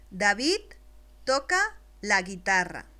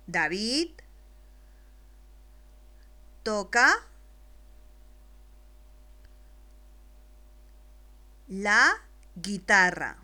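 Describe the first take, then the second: First: Said in the usual way. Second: Each word alone, louder, with long pauses; slow dictation. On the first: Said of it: "voy a leer la primera oración completa". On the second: Shown as a demonstration. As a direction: dicta palabra por palabra, despacio. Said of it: "después te la dicto". (dictado claro y lento para un niño)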